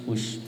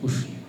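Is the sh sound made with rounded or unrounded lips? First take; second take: unrounded; rounded. First: The sh sound is made with relaxed lips. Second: The sh sound is made with rounded lips. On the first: It sounds light and natural. The speaker calls it right. "biasa aja" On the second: It sounds heavy, strained and thick. The speaker calls it wrong. "Kalau pakai bibir tuh kesannya tuh berat"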